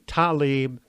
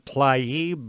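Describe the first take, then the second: First: The name begins with t, a vowel, then l. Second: The name begins with t directly followed by l. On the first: This is how other people pronounce it. "others say Talib, how T L A I B can be pronounced like T A L I B" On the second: This is the speaker's own habitual pronunciation. "I keep saying Tlaib"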